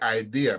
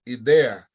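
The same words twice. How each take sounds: First: The vowels sound like English vowels. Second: The vowels sound like pure Spanish vowels. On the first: The speaker calls it wrong. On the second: The speaker calls it right.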